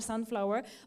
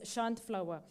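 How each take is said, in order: First: It begins with a plain s sound. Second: It begins with an sh sound. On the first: This is how it is commonly said locally. The speaker calls it wrong. "people mostly pronounce it as sunflower" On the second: This is the actual name. The speaker calls it right. "It's actually uh, pronounced as shunt flower"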